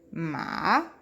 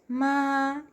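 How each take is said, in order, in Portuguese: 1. Pronunciado com o terceiro tom do mandarim. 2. Pronunciado com o primeiro tom do mandarim. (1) "Terceiro tom" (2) "Primeiro tom"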